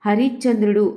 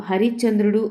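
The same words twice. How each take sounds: The two takes are said the same way.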